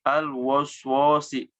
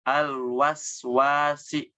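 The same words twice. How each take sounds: First: Al waswasi with dark rounded o vowels, woswosi; thick waswasi; wrong thick waswasi. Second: Al waswasi with light open a vowels; slow, careful Al waswasi with thin a; correct thin waswasi. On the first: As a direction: demo the error: waswasi darkened to woswosi. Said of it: "itu ditebalkan tuh". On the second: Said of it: "Nah, seperti itu". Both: Shown as a demonstration.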